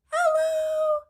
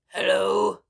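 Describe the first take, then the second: First: It is said in a very high voice. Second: It is said in a very low voice.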